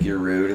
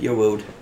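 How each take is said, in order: First: The word begins with a clear R sound. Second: The word begins with a W sound.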